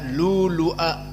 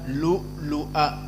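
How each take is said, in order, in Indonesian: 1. Tidak ada hamzah yang terdengar di tengah. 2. Hamzah terdengar di tengah. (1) "tidak lulu'a" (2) "tetap dibaca lu'lu'a"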